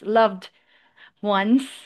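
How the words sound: A short pause separates the two words. The speaker calls it wrong. "you have the tendency to hesitate and give like a short space"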